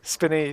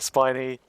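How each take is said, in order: First: The first vowel is short, as in pin. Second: The first vowel is long, as in pine. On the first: The speaker calls it wrong. "I keep pronouncing it as spinny" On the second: The speaker calls it right. "and not spiny"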